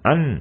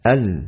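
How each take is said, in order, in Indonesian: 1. Bunyi lam keluar lewat hidung. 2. Bunyi lam diucapkan tanpa sengau. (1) "mengeluarkan huruf lam dari hidung. Tidak dibaca"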